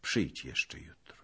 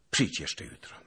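First: Soft, near-whispered invitation; gentle and quiet, almost whispering; sweetly. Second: Said in the usual way. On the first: A narrator's reading. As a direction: send them off tenderly, hushed. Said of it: "ze słodyczą w głosie".

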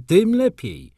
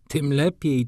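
First: Tym lepiej shot up high and loud; gleeful outburst. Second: Said in the usual way. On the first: Acted. The doctor relishing his advice, gleefully shouting. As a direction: burst out with relish on the repeat. Doctor repeats with growing glee.

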